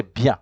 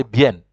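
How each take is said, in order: First: BIEN as French "byan", nasal vowel at the end; French pronunciation. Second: BIEN as "byen", every letter sounded; Spanish pronunciation. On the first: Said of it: "in French you pronounce it". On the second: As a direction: say BIEN with a clear E and final N. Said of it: "you pronounce what you see". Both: Shown as a demonstration.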